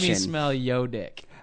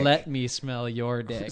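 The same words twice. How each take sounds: First: It is said in an Oakland street accent. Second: It is said in a standard white American accent. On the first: The speaker calls it right. "I live in Oakland. So let me pronounce that for you" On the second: The speaker calls it wrong.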